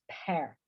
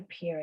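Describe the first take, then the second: First: "pear" pronounced like "pair"; open eh vowel. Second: "pier" pronounced like "peer"; ee vowel. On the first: Teacher giving students the right fruit word, "pear" said like "pair". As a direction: say "pear" with eh, rhyming with "air". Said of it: "es pear". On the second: Teacher contrasting the harbour word with the fruit, "pier" with an ee sound. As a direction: say "pier" to rhyme with "beer". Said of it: "no se dice pier". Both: Shown as a demonstration.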